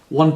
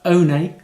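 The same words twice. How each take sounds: First: It sounds like the ordinary English number. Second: It sounds unlike the ordinary English number. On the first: "I've got this uh, Altra one two point five" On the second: "should I be calling it the Altra One two point five?"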